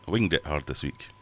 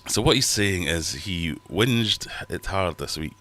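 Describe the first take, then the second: First: "winged" with a hard g, like a bird's wing; "winged" rhymes with ringed. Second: "whinged" as in complaining. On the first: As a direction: say "winged" as in flying. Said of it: "Is winged right?". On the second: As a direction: say "whinged" like whining. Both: Shown as a demonstration.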